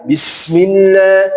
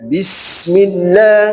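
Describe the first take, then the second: First: The s sound is drawn out long. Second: The s sound is drawn out long.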